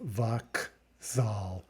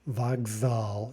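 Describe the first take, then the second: First: The middle consonant is unvoiced, sounding like k. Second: The middle consonant is voiced, sounding like g. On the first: The speaker calls it wrong. "instead of vakzal" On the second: The speaker calls it right. "vokzal instead of vakzal"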